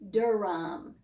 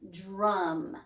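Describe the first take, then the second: First: An extra vowel separates the d and r. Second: The d and r blend with no vowel. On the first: The speaker calls it wrong. "We don't say Durham" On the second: The speaker calls it right. "It is drum"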